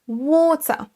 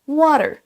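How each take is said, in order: First: It is said with a British accent. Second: It is said with an American accent. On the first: "avec l'accent britannique" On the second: "avec l'accent américain"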